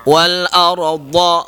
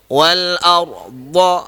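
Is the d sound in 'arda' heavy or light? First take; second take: heavy; heavy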